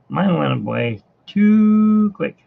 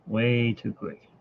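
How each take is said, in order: First: Slow, louder drawn-out complaint with stress on "too"; loud lament. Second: Softer, slow repeat stressing "Way"; quiet echo. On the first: Telling viewers his weekend was short, a loud slow complaint. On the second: Echoing his own complaint to viewers, a soft slow repeat. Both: Real, not acted.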